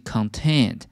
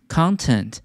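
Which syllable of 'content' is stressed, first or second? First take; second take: second; first. First: The stress is on the second syllable. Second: The stress is on the first syllable. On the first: It is the adjective meaning satisfied. "重音在第二个音节" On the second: It is the noun meaning what something contains. "content 内容"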